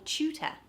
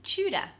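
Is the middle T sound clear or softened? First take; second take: clear; softened. First: The middle T is clearly pronounced. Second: The middle T is softened, not clearly pronounced.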